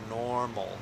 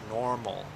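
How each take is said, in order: Both takes have the same delivery.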